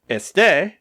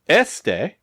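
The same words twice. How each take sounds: First: The stress is on the last syllable. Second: The stress is on the first syllable. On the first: It means that I am or that he, she or it is. "with the accent, means that I am" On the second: It means this. "without an accent, means this"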